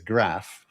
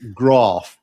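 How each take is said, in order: First: The vowel is short, as in 'cat'. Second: The vowel is long, as in 'father'. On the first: "but I'm from Yorkshire, so it's a graph"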